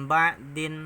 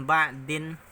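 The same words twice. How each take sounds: Both takes have the same delivery.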